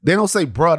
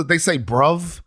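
First: "bruh" with an open ending and no v; American bruh. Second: "bruv" with a clear v at the end; British bruv. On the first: Contrasting the American word, "bruh" with no final consonant. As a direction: say "bruh", letting it trail off open. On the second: Teaching a friend the British word, "bruv" ending in v. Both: Shown as a demonstration.

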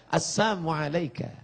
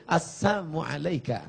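First: Soft, sly greeting said with a sneer; whisper-soft salam with hidden mockery; soft mocking greeting. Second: Soft, sneering near-hush; sweet on the surface, mocking beneath; soft sly greeting. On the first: (salam lembut yang mengejek) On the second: (salam lembut menyindir) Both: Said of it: "Bunyinya lembut".

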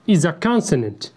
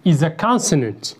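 The two takes are said the same way.

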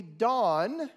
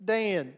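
First: "Don" with an ah like in father; "Don", open ah vowel; Hebrew pronunciation. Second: "Dan" with the flat a of can; "Dan" said the American way, a as in ran; American pronunciation. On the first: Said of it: "so it would be Don". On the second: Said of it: "instead of Dan". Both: Shown as a demonstration.

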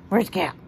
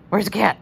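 First: Said in the usual way. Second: Louder, keyed-up question; excited ask. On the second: Real, not acted. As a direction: egg the pig on, louder. Asking pig repeatedly.

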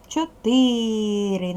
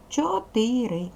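First: Чотири very slow, syllable by syllable, second syllable stressed. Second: Said in the usual way. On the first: Shown as a demonstration. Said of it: "Наголошений другий склад". (Чотири дуже повільно, наголос на другому складі) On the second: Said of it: "Перевіряємо всі тверді приголосні".

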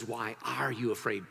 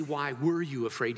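First: "are" stressed to mark present tense. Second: "were" stressed to mark past tense. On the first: Preacher showing what Jesus said, stress on "are". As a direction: lean on "are" in the question. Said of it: "Present tense". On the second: Preacher showing what Jesus didn't say, stress on "were". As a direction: lean on "were" in the question. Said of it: "He doesn't say". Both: Shown as a demonstration.

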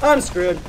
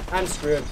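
First: Loud frustrated groan of a line; exasperated. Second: Said in the usual way. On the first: Real, not acted. Gamer out of bullets, exasperated outburst. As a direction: blurt it out, fed up. Ran out of bullets mid-fight.

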